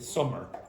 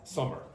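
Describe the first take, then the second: The two takes are said the same way.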